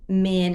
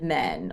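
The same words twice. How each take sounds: First: The vowel is said with a Dallas accent. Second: The vowel is said with a standard accent. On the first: "people in Dallas, they say like" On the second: "instead of"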